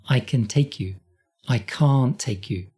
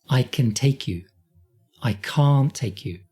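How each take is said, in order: Both takes have the same delivery.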